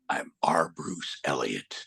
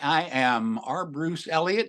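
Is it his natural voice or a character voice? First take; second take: character; natural. First: It is said in Whitebeard's character voice. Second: It is said in his natural voice.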